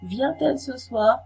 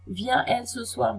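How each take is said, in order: First: A t sound links the verb and pronoun. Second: The vowels run together with no t sound. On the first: The speaker calls it right. "ते सुनाई देता है" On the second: The speaker calls it wrong. "नहीं बोला जाता"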